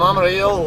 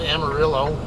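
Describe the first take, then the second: First: The name has a Spanish-style pronunciation. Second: The name has an American English pronunciation. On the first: The speaker calls it right. "I don't pronounce it the stupid American way" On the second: The speaker calls it wrong. "as you guys all like to call it"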